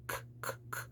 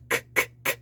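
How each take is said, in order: First: "k" breathed softly far back in the throat; a quiet, swallowed "k"; a soft throat "k", barely there; muted back k. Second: "k" spat out crisp at the front; a hard, forward "k"; a sharp front "k" burst; in-your-face k. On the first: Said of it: "so it's more of a k". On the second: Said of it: "really k in your face sound". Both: Shown as a demonstration.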